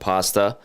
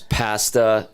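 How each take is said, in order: First: It is said with the non-Canadian vowel. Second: It is said with the Canadian vowel. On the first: This is how people outside Canada say it. "instead of" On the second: This is how people in Canada say it. "we have Canadianized a few words"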